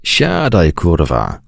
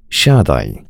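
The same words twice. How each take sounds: First: Put-on drunken roar. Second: Lower, calm command; calm now. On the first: Drunk major roars at Hubert to sit down, bellowing. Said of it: "ryknął pijackim basem Benson". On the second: Major, calmed, tells Hubert to sit, even and calm. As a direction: settle down and say it evenly. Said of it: "powiedział spokojnym już tonem". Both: A narrator's reading.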